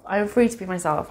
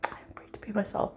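First: Said in the usual way. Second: Soft unvoiced whisper, a little quick. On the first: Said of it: "same affirmation said aloud again". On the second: Shown as a demonstration. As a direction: breathe the affirmation out as a secret. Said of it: "repeats affirmation in a whisper".

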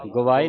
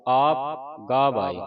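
First: ਗਵਾਏ with a short a after the g, the wrong way; wrong reading. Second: ਗਾਵਾਏ with a long aa after the g, slow; correct reading. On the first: Teacher shows students the wrong reading, ਗਵਾਏ with a short a. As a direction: clip ਗਵਾਏ as gavaae, the mistake to avoid. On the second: Teacher gives students the correct ਗਾਵਾਏ, with a long aa. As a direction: draw out ਗਾਵਾਏ as gaavaae. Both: Shown as a demonstration. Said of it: "ਗਵਾਏ ਨਹੀਂ ਪੜ੍ਹਨਾ".

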